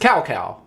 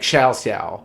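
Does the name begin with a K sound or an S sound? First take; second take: K sound; S sound. First: The name begins with a hard K sound. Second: The name begins with a soft S sound. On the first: The speaker calls it wrong. "they pronounced his name as Cao Cao because it was C A O C A O" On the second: The speaker calls it right. "that C was actually pronounced as an S, and it was like Xiao Xiao"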